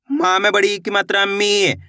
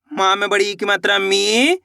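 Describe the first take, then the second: No difference in how they are said.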